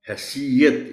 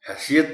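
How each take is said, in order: First: The y sound is doubled. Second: The y sound is single. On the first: The speaker calls it right. "ये पर शद के साथ ज़बर है" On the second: The speaker calls it wrong. "हैसियत नहीं बोल सकते"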